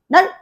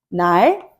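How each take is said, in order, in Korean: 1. 마지막 ㄹ 소리는 빨리 닫혀요. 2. 마지막 ㄹ 소리는 길게 유지되고 흘러요. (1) "이런 식으로 빠르게 닫아요" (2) "이런 식으로 좀 길어지죠 소리가"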